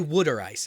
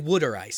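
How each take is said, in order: First: Water sounds like 'wooder', in a Philadelphia accent. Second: The same.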